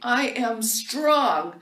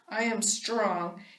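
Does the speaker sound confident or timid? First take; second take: confident; timid. First: It is said firmly and confidently. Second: It is said weakly and timidly.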